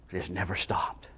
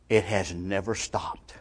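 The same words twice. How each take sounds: First: Near-whisper, very low and soft; barely voiced, solemn repeat; whispered echo. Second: Low, slow, soft statement; quiet, weighty and unhurried; hushed solemnity. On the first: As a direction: let it sink to a whisper. Preacher repeats it as hushed echo. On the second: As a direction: drop low and slow for a grave answer. Preacher's solemn answer, then repeated. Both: Real, not acted.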